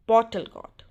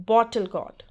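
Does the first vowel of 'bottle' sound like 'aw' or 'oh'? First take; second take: aw; aw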